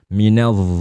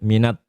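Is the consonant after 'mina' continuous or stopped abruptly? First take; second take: continuous; stopped. First: The consonant is held with a continuous flowing sound. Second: The consonant is stopped with no flowing sound. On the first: The speaker calls it right. "suara dha-nya harus muncul" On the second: The speaker calls it wrong. "Jangan-jangan jadi dal"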